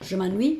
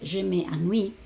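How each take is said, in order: First: The vowel of 'me' is dropped. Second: The vowel of 'me' is pronounced fully. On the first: The speaker calls it right. "es mucho más rápido" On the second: The speaker calls it wrong. "tengo dos pronunciadas, dos es y me, me, me cuesta un poquito más"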